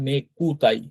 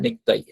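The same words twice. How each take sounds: First: "নেকুতাই" in three parts, ne-ku-tai; U fully sounded. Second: "নেকতাই" as nek-tai, the u dropped; silent U. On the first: Teacher showing the broken-up form, "নেকুতাই" with audible u. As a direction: give the ku in "নেকুতাই" its full vowel. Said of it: "ভেঙে ভেঙে কথা বলবেন তখন কিন্তু উচ্চারণটা বোঝা যায়". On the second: Teacher showing fast-speech form, "নেকতাই" with silent u. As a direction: close ku down to a bare k in "নেকতাই". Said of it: "কুটা কয়ের মতো উচ্চারণ হবে নেকতাই". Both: Shown as a demonstration.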